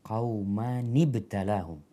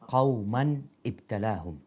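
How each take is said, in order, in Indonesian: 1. Kedua kata disambung dengan bunyi 'ni'. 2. Kedua kata diucapkan tanpa vokal penyambung. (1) "Kalau disambung ya apa?" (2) "Membaca qauman ibtalahum"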